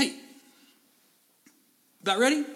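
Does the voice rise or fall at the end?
rise. It rises at the end like a question.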